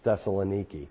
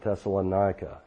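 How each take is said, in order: First: The name ends with a 'kee' sound. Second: The name ends with a 'kah' sound. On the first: This is the actual name of the city. The speaker calls it right. "It's Thessaloniki" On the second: This is how American Christians say it. The speaker calls it wrong. "as American Christians mispronounce it"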